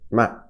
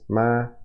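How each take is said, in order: First: The pitch falls sharply from high to low. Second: The pitch stays high and level. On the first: "four is falling, so ma" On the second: "High is ma"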